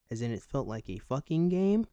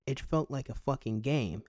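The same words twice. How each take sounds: First: "game" lifted in a rising tune. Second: "game" leaned on at the end; stress on game. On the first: Comedian musing whether "fucking" is a verb, rising on "game". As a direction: let "game" rise as a question. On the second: Comedian weighing the grammar, emphasis on "game". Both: Shown as a demonstration. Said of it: "put some emphasis on game".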